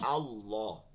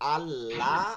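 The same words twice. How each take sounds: First: The l-sound is thick and heavy. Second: The l-sound is thin, followed by a clear a.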